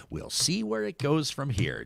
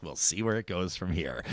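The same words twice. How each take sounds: First: Soft, neutral anchor sign-off; news anchor voice. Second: Low, soft news anchor sign-off. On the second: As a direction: close it like a six o'clock anchor stacking papers. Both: Shown as a demonstration. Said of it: "six o'clock news anchor impression".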